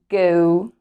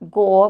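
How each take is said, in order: First: The vowel is a long, drawn-out O. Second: The vowel is short, not a long O. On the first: The speaker calls it right. "It's going to be a long O" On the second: The speaker calls it wrong. "Not go"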